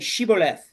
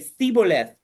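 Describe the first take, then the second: First: The word begins with an sh sound. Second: The word begins with a th sound. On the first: The speaker is one of the locals. The speaker calls it right. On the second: The speaker is one of the enemy. The speaker calls it wrong.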